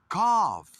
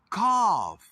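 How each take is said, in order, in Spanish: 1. El sonido final es una f. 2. El sonido final es una f.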